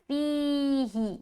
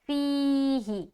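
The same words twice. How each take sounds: The two takes are said the same way.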